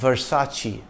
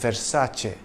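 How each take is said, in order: First: The C is not said as CH. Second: The C is said as CH. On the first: The speaker calls it wrong. "often mispronounced as Versace" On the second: The speaker calls it right. "the correct pronunciation is Versace"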